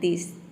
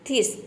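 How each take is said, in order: First: The word begins with a soft d sound. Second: The word begins with an aspirated t sound. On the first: The speaker calls it right. "तब आपने रखा द, तो ये हो जाएगा दिस" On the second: The speaker calls it wrong. "T H को थ pronounce किया थीस"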